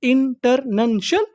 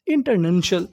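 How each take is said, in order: First: international drawn out slowly, rising at the end; slow, stretched out. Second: Said in the usual way. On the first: Shown as a demonstration. (International को धीरे धीरे खींचकर बोलिए) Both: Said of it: "उसे क्या बोलते हैं".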